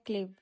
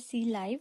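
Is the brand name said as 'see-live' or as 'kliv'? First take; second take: kliv; see-live. First: The name is said as 'kliv'. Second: The name is said as 'see-live'. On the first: This is how people here say it. "हम यहाँ पर कहते हैं क्लिव" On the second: This is how people abroad say it. "बाहर का brand है जिसे कहते हैं सी लाइव"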